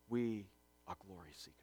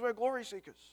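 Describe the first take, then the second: First: It is said in a serious, earnest tone. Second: It is said in a casual, offhand tone. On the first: The claim is made with real conviction. The speaker calls it right. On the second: The claim is made lightly, without real conviction. The speaker calls it wrong.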